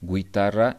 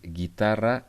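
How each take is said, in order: First: A 'w' sound is heard after the g. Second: No 'w' sound is heard after the g. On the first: The speaker calls it wrong. "It's not guitarra" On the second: The speaker calls it right. "it's guitarra"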